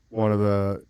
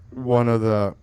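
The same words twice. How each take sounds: The two takes are said the same way.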